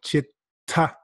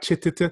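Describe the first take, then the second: First: The t sound is held for a moment. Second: The t sound is released twice separately. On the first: The speaker calls it right. "you hang out at that um, sound a little longer" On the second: The speaker calls it wrong. "You don't say it twice"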